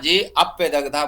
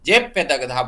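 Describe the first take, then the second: First: The short 'a' is sounded as a separate syllable. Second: The short 'a' is merged into 'ye'. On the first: An extra syllable is added, breaking the metre. The speaker calls it wrong. "जे अप्यदग्धा बोलने की जरूरत नहीं है" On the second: The metre stays intact. The speaker calls it right. "जे प्यदग्धा बोलने की जरूरत है"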